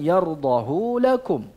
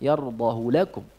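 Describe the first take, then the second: First: The vowel after the h is drawn out long. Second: The vowel after the h is kept short. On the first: The speaker calls it wrong. "bukan yardahu lakum" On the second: The speaker calls it right. "dengan memendekkan hu-nya"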